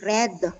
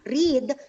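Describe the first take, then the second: First: The vowel is short, as in bed. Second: The vowel is long, as in need. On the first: It is the past tense. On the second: It is the present tense.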